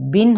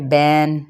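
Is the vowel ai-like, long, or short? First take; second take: short; ai-like. First: The vowel is a short i. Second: The vowel is an ai sound. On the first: The speaker calls it right. "बा दो ज़ेर बिन होता है" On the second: The speaker calls it wrong. "मजहूल भी ना पढ़ा जाए"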